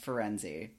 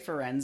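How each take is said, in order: First: The name ends with a pronounced final vowel. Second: The name ends without a final vowel sound. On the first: This is how the Italian word is said. "where it ends in an E and you pronounce the E" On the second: This is how the name is said in the movies. "Do they say Ferenz in the movies?"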